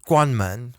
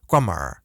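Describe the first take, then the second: First: It ends without an r-colored sound. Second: It ends with an r-colored sound. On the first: This is the standard form. "instead of saying" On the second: This is a regional northern form. "they say"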